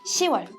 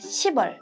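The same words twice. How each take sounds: First: No p sound comes before wol. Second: A p sound comes before wol. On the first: The speaker calls it right. "it's 시월. It's exception" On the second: The speaker calls it wrong. "it's not 시월"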